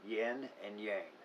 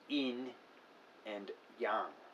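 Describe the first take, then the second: First: The words are said in an Americanized way. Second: The words are said closer to Mandarin Chinese. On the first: The speaker calls it wrong. "This is how it is often pronounced, particularly in the southern United States" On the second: The speaker calls it right. "it is more correctly pronounced"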